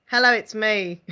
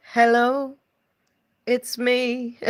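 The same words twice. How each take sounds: First: Said in the usual way. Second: Mock-sung [name], it's me, like [name]; [name] singing. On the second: Shown as a demonstration. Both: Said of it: "[name] singing".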